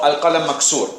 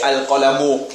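First: "Al-qalam maksur" said short, with no case endings; casual Arabic. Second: "Al-qalamu" with the full case ending -u said out; full formal ending. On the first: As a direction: say "Al-qalam maksur" the relaxed spoken way, dropping the endings. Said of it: "Uh, no". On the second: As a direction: pronounce "Al-qalamu" carefully, vowel ending and all. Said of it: "You wouldn't even finish that". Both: Shown as a demonstration.

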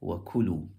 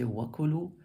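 First: "وَكُلُوا" with the ku stressed, falling after; "وَكُلُوا", peak on ku then drop. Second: "وَكُلُوا" with the opening wa stressed; "وَكُلُوا", weight at the front; stress on first syllable. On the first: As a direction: lean on the middle syllable of "وَكُلُوا". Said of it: "but more eloquent". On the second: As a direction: punch the wa in "وَكُلُوا". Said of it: "not wrong if you were to say". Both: Shown as a demonstration.

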